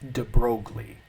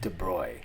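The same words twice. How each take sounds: First: The name is said the English way. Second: The name is said the French way.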